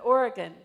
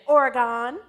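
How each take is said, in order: First: Oregon is said with the local pronunciation. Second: Oregon is said with a Southern pronunciation. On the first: This is how locals say it. The speaker calls it right. "but Oregon. And when I said it, it's like I had passed some test" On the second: This is how outsiders from the South say it. The speaker calls it wrong. "He expected me to say, ... that's the way my mother says it"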